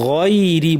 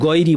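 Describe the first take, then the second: First: The first consonant is soft and breathy. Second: The first consonant is a hard g. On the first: The speaker calls it right. "নরম করে গয়রি বলতে হবে" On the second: The speaker calls it wrong. "Bangla গয়ের মতো শক্ত আওয়াজ করি"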